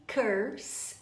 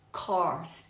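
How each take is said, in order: First: "curse" with er as in her; careful "curse", closer vowel and hissed s; contrasting curse. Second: "course" with open aw as in or; lower, falling "course", vowel wide open. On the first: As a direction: set "curse" against course with a central vowel. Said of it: "E curse, amaldiçoar". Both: Shown as a demonstration.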